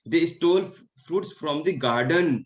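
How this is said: The word garden carries the main stress. They stole it from the garden. "तो उन्होंने garden से fruits को चुराया है"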